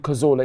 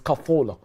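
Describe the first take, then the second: First: The middle consonant is a buzzing z sound. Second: The middle consonant is a soft hissing sound. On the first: This is how people commonly said it. The speaker calls it wrong. "People used to call him Cazola" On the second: This is how it is said in Spanish. The speaker calls it right. "That's how you say it in Spanish. So it's not it's not Zola"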